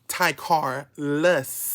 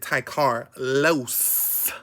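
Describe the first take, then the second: First: The name ends with a 'luss' sound. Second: The name ends with a 'loss' sound. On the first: This is the name the parents gave. "I went from lus" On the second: This is the name the speaker chose. "to los"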